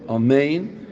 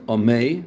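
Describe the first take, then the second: First: The whole word is said with the final n. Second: The word is cut off before the final n. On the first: The speaker calls it right. "but amein. ... and say the whole word" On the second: The speaker calls it wrong. "Not amei"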